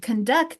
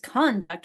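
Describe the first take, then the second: First: The stress is on the second syllable. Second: The stress is on the first syllable. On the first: It is a verb meaning to lead or carry out. "on the second syllable in the the verb form" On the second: It is a noun meaning behavior. "we stress the first syllable in the in the noun form"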